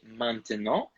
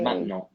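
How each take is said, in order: First: All syllables are pronounced fully, Southern French style. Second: Syllables are dropped, Northern French style.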